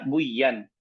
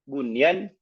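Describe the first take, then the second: First: The n sound is merged into the next sound. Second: The n sound is pronounced clearly. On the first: The speaker calls it wrong. "bukan kita baca buyan" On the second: The speaker calls it right. "bunyan bukan kita baca"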